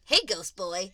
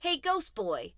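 First: Loud, friendly hello. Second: High, loud taunt; insulting. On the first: Retold or imitated. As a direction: call out to a pal, no dig. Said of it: "like, friendlier". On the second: Acted. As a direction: call out the name as a jeer. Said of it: "say them like an insult".

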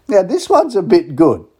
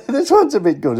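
First: Slow, high and loud, savouring the words; hyping up the next song for listeners; excited tease. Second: Repeated through a real laugh, pitched up high. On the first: Radio host teasing a Christmas song, high and excited. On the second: Host cracking himself up over the song, laughing. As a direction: giggle your way through the repeat. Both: Real, not acted.

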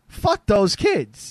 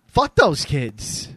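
First: Put-on slow and louder, punching fuck in "fuck those kids"; louder emphatic repeat. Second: Put-on slow, weighted fuck those kids, stress on those; slow emphatic. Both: Shown as a demonstration.

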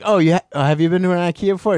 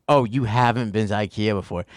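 First: Said in the usual way. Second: A light snooty clerk, "Oh" falling and drawn; mock condescending. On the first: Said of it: "It wasn't just like". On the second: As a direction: look down on the newcomer, mildly. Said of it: "It's just like".

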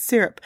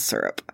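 First: "syrup" said SIRR-up; first vowel of "syrup" as in "mirror". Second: "syrup" said SUR-up; first vowel of "syrup" as in "sir". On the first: Shown as a demonstration. Correcting to her natural way, "syrup" as SIRR-up. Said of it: "It's not natural". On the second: Retold or imitated. Quoting everyone around her, "syrup" as SUR-up. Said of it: "everyone around me says syrup".

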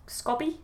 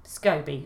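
First: "scoby" with a short o, as in "hobby"; alternative pronunciation. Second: "scoby" with a long o, SKOH-bee; settled pronunciation. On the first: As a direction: try "scoby" as SKOBBY, questioning and softer. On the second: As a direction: say "scoby" to rhyme with Toby, falling. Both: Shown as a demonstration. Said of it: "It must be scoby".

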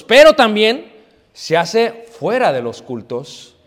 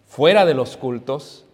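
First: Slow, louder preaching stress on "fuera de los cultos"; emphatic first take. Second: Slow, lower repeat of "Fuera de los cultos" as an echo; soft echo. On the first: Preacher stresses to the congregation, slow and emphatic. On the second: Preacher echoes the point to the congregation, slow and low. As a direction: let "Fuera de los cultos" fall back quietly and slowly. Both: Shown as a demonstration.

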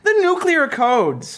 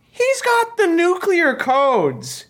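First: "The nuclear codes" echoed high and slow; repeated grave emphasis. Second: "nuclear codes" drawn out high and slow; slow grave emphasis. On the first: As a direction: repeat "The nuclear codes" slowly to hammer it home. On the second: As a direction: lean hard on "nuclear codes", slowly, like a warning. Warning about the president. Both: Acted.

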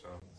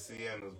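First: Shauna's opening on a SH sound, SHAW stressed; correct name pronunciation. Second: Sienna's with an S sound and EN in the middle; spelling pronunciation. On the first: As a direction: say Shauna's as SHAW-nuhs, two syllables. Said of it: "but it's pronounced Shauna's". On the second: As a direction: say Sienna's as it is spelled, starting see-EN. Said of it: "It's spelled like it's". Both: Shown as a demonstration.

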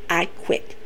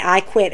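First: "I quit" breathed out voiceless and much softer; whispered I quit. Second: Said in the usual way. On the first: Retold or imitated. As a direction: let "I quit" fall away in a whisper. Retelling the I Quit stipulation.

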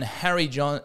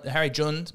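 First: "Harry John" with John said like the English name, an open o; anglicised "Harry John" in a slip on air; wrong name. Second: "Harry Jund" with Jund said with a short rounded oo and a final d; careful "Harry Jund", the friend's real name; corrected name. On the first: Podcast host mangling his friend's name as "Harry John". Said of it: "not Harry John". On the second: Host correcting himself to say his friend's name properly as "Harry Jund". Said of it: "my good friend Harry Jund". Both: Shown as a demonstration.

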